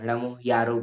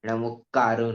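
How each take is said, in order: First: The last word begins with a y sound. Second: The last word begins with a k sound. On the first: This is the form used in the Digambar tradition. The speaker calls it right. "આપણે બધા નમો યારો બોલવાનું" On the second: This is the form used in the Shvetambar tradition. The speaker calls it wrong. "નમો કારો નહીં"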